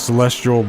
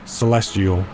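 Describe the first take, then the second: First: The name is said quickly and loosely. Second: The name is said with each sound clearly enunciated. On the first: The speaker calls it wrong. "I'm just saying Celestial" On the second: The speaker calls it right. "pronouncing it better"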